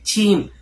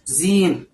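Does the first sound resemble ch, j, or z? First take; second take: ch; z. First: It starts with breath, sounding like ch. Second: It starts with a buzzing z sound. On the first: "Kalau keluar nafas malah kedengaran kayak huruf C" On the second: "atau seperti huruf Z"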